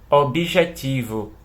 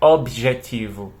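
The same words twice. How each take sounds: First: The b is followed by an added i sound. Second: The b runs straight into the next consonant. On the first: This is the everyday informal pronunciation. "trazer esse B aqui... com som de bi" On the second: This is the careful, ideal pronunciation. "bem rápido assim, né, com o som cortado"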